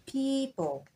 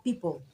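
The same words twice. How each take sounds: First: "people" with a long, drawn-out ee, higher; long ee sound. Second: "people" with a short clipped first vowel; wrong short vowel. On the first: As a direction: stretch the ee in "people". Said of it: "You pronounce the long E sound". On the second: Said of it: "So that word is not people". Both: Shown as a demonstration.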